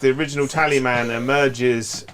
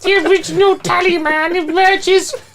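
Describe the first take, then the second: First: It is read in the speaker's plain voice. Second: It is read in a put-on Nurgle voice.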